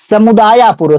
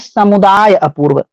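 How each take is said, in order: First: The two words are merged into one. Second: The two words are kept separate.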